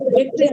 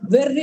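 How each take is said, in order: First: The middle consonant is a t followed by r. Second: The middle consonant is a doubled r. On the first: It means victory. "వాళ్ళు దాని ఉచ్చారణ విధానం ఎలా వెట్రి అని అంటారు" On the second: It means madness. "మన తెలుగులో దాన్ని ఎలా ప్రొ ప్రొనౌన్స్ చేస్తాము వెర్రి అని అంటాం"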